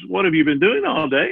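The question sounds innocent and mild.

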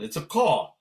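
It is said in a Brooklyn accent.

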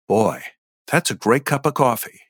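It is voiced as a heart-centered character.

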